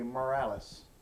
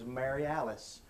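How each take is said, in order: First: The name is clipped together in a Mississippi accent. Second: The name is said fully, in standard syllables.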